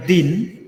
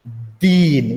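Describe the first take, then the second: First: दिन with a short clipped i; short vowel din. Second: दीन with a long drawn ee; long vowel deen. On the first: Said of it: "और ये जो है". (दिन में छोटी इ) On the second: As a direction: stretch the ee in दीन. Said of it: "इसका pronunciation देखो". (दीन में लंबी ई) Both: Shown as a demonstration.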